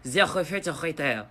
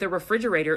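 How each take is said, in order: First: It is said with a French accent. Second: It is said with a plain English accent.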